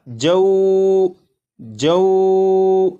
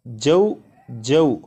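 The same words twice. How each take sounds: First: The vowel sound is drawn out long. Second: The vowel sound is kept short. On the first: The speaker calls it wrong. "अगर इसे खींच कर पढ़ें तो ये इस तरह पढ़ा जाएगा" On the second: The speaker calls it right. "इसे बगैर खींचे पढ़ेंगे"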